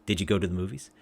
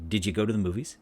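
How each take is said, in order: The two takes are said the same way.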